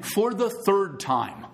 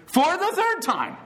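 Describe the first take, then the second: First: "the" drawn out, slow and even; slowed count for the congregation; slow emphasis. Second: "third" hit high and slow; much higher, lean hard on "third"; playful preacher hammering the point home; emphatic repeat. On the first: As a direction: stretch it out deliberately. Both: Shown as a demonstration. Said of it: "emphasis here?".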